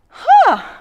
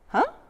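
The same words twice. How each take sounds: First: The 'huh' sounds eager and excited. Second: The 'huh' sounds puzzled and confused. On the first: The speaker is excited about something. "a really enthusiastic huh" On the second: The speaker does not understand something. "a really confused huh"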